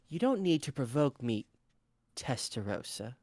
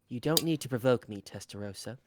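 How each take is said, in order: First: There is a pause before the name. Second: The name follows without a pause. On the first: The speaker calls it right. "There's a pause because she was about to call her Blanc" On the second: The speaker calls it wrong. "No, there's a pause"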